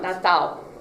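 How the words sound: The word ends in a vowel-like sound. "in Brazil, it becomes an A O sound"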